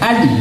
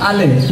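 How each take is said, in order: First: The l is held and stops without a bounce. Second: The l ends with an added echoing vowel bounce. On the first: The speaker calls it right. "এভাবে কিভাবে ধরতে হবে দেখো" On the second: The speaker calls it wrong. "যদি তোমরা এইভাবে বলো আলে, তাহলে কলকলা হয়ে গেল না? তাহলে ভুল হয়ে যাবে না?"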